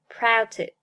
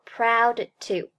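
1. proud的d保持住，不爆破。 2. proud的d是完全爆破的。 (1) "而读作proud to，Proud 爆破音的失去爆破" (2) "不读作proud to"

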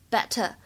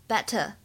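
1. 中间的 t 是清晰的 t 音。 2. 中间的 t 是清晰的 t 音。

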